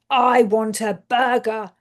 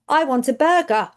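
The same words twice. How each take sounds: First: Same words, new feeling in the voice; emotional intonation demo. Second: Said in the usual way. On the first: Shown as a demonstration. Speech therapist demonstrating a changed intonation, emotional. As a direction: say it with a different emotion to carry meaning. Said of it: "with the appropriate emotional intonation". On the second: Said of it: "So it might be like".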